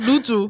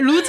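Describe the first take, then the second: First: The word ends with a 'ju' sound. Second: The word ends with a 'zeu' sound. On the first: The speaker calls it right. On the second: The speaker calls it wrong. "루즈 아니고"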